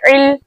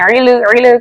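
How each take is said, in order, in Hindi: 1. अंतिम L स्थिर और रुकी हुई रहती है। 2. अंतिम L हिलती हुई और कंपन वाली होती है। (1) "हम कैसे पढ़ेंगे?" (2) "हम इसको लाम को हिलाएंगे नहीं, इल इल करके हम नहीं पढ़ेंगे"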